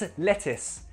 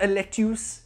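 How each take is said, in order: First: The last syllable sounds like 'is'. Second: The last syllable sounds like 'us'. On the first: The speaker calls it right. "it's a lettuce with an I sound" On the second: The speaker calls it wrong. "It's not a lettuce"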